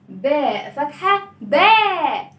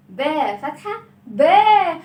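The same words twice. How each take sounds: The two takes are said the same way.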